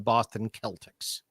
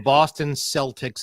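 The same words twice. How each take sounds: First: Celtics begins with a hard K sound. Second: Celtics begins with a soft S sound. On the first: This is how the word itself should be said. The speaker calls it right. "Because it should be Celtic. That's what the word is" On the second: This is what the team is actually called. The speaker calls it wrong. "Why is it called the Boston Celtics"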